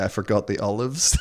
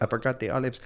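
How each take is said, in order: First: Mock Spanish accent. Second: Bad Spanish accent. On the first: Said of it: "I had to do a Spanish accent". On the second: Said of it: "It was, like, terrible".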